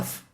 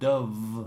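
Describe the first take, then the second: First: The word ends with a voiceless f sound. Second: The word ends with a voiced v sound. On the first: "the Spanish people will say Duff" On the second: "The product on the T V and the adverts is called Dove"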